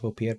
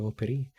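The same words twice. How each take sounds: First: "Volpierre" said voh-pee-AIR, French-style ending; "Volpierre" with no l and a silent final r; wrong name. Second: "Volperi" said vol-PEH-ree, ending in ree; "Volperi" with a clear l and a final ee; corrected name. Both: Shown as a demonstration. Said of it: "Volperi, I should say".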